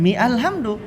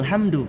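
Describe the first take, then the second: First: The initial 'a' sound is pronounced separately. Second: The word joins on without the initial 'a' sound. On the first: The speaker calls it wrong. "bukan mi alhamdu" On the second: The speaker calls it right. "kalau disambung jangan baca A"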